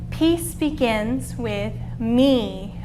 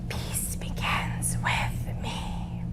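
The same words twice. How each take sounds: First: The phrase is said at normal volume. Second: The phrase is whispered softly. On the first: "we'll just say it in our normal voice" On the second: "let's whisper it together"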